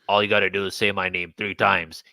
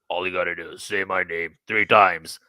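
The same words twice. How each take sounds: First: It is said in a higher voice. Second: It is said in a very deep voice.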